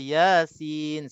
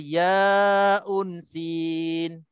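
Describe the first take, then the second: First: The letters are read as two short syllables. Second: The letters are read out as full names. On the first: The speaker calls it right. "Kita baca Yasin saja" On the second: The speaker calls it wrong. "Kita tak baca ya unsin"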